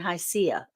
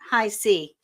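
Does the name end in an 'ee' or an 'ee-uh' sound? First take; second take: ee-uh; ee. First: The name ends in an 'ee-uh' sound. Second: The name ends in a single 'ee' sound. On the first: The speaker calls it wrong. "Because I was saying hi, Cia. And that's not very good" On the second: The speaker calls it right. "I understand that that's how you say it"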